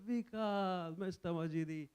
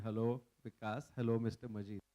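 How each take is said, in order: First: Higher, drawn-out names in mock affection; loving greeting. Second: Lower, subdued, awkward hellos; tongue-tied greeting. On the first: Two friends hugging at the door, affectionate retold greeting. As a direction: act out greeting a dear friend with a hug. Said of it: "so much loved, hugged each other". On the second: Retold or imitated. Two friends stuck without an interpreter, low awkward greeting. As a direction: act out stiff hellos with nothing more to say. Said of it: "we could not say one word beyond".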